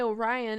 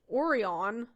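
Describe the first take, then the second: First: The name is said the way Californians say it. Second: The name is said the way Germans say it. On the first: "but I say Orion, and I always have growing up in California" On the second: "which I learned here in Germany is pronounced Orion"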